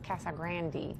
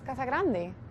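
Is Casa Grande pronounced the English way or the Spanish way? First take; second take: English; Spanish. First: It is said with an English accent. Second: It is said with a Spanish accent. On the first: The speaker calls it wrong. "Me suena rarísimo" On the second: The speaker calls it right. "la palabra es"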